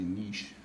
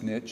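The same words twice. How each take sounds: First: It is said in the French pronunciation. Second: It is said in the speaker's regional pronunciation. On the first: This is how the word is said in French. "the French is actually niche" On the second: This is how people say it where the speaker grew up. "where I come from, it's niche"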